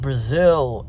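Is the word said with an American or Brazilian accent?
American. It is said with an American accent. "they replied"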